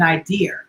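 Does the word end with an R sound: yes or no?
yes. The word ends with an added R sound. "some people add R's to things that don't belong there"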